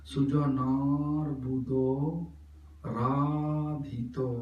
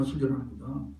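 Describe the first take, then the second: First: Sujanar and Radhito drawn out very slowly on the long A; slow, sustained syllable-by-syllable "Sujanar Buddho Radhito". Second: Sujanar Buddha said quickly with no lengthened A; unstretched, spoken "Sujanar Buddha"; short vowels. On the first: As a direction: hold "naa" in Sujanar and "raa" in Radhito. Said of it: "Follow my pronunciation". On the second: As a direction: run through "Sujanar Buddha" without holding any syllable. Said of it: "no, Sujanar Buddha". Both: Shown as a demonstration.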